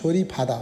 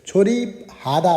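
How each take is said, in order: First: The second word begins with an aspirated p sound. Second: The second word begins with a plain h sound. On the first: The speaker calls it right. "छोरी फादा हुन्छ है त, त्यो बलाई चाहिँ हले ता तानेर फ बनाउँछ" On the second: The speaker calls it wrong. "छोरी हादा भन्दा पनि"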